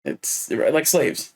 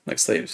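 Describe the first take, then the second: First: Said in the usual way. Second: "like slaves" whispered under the breath, lower; whispered echo. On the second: Real, not acted. Quiet echo of the phrase.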